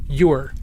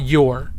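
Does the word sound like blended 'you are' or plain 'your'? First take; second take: blended; plain. First: It sounds like 'you are' run together. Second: It sounds like the plain one-syllable word 'your'. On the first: "I say you're" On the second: "not your"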